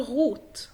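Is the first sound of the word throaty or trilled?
throaty. The first sound is a throaty r. This is the standard German form. "فطبيعي ان انت تقول غوت"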